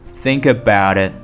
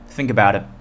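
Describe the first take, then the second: First: The phrase is spoken slowly and carefully. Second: The phrase is spoken quickly and smoothly. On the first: "从慢到快" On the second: "从慢到快"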